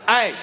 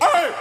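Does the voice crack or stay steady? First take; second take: steady; cracks. First: The voice stays steady without cracking. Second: The voice cracks in a strained yell.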